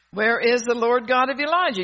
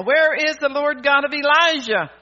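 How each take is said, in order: First: A raised, insistent preaching question; preached cry. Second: Full-force preaching shout, louder and higher. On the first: Preacher first calling out the question to the congregation, raised. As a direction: call it out to the congregation. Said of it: "You ought to be shouting that". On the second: Preacher shouting the question for the congregation to copy, loud. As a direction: shout it out like a revival cry. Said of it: "You ought to be shouting that tonight". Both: Shown as a demonstration.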